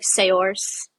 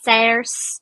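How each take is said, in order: First: SAOIRSE sounded out as "say-ors"; spelling pronunciation. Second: SAOIRSE in an Irish accent, "sairs". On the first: Showing how the Irish name looks, SAOIRSE read literally as "say-ors". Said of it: "it looks like". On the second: Sounding out a name for a friend, in an Irish accent. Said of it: "really good Irish accent". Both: Shown as a demonstration.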